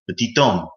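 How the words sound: It is said the French way, linking the T. "pronouncing it like in its native derivative"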